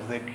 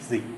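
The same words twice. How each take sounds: First: The letter is said as zed. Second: The letter is said as zee.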